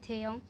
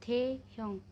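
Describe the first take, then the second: First: The syllables run together, with the h softened. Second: The syllables are said apart, with the h heard.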